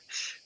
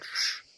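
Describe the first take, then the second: First: The sh sound is soft. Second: The sh sound is hard. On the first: "soft sh, ... but sh" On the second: "not sh"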